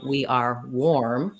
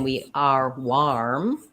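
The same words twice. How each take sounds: First: The vowel in warm sounds like 'or'. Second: The vowel in warm sounds like 'ar'. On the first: The speaker calls it right. "It's actually an or sound" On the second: The speaker calls it wrong. "We aren't saying"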